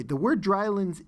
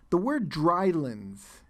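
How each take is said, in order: First: Said in the usual way. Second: Slow, deliberate "drylands" for the class; slow emphasis. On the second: Shown as a demonstration. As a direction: draw out "the word drylands" slowly and point at it. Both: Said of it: "the word drylands in the passage".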